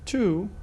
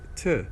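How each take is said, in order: First: The word has a full long oo vowel. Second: The word has a reduced schwa vowel. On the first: "that's the strong pronunciation" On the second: "If the following word starts with a consonant, then it is t, t, t and schwa"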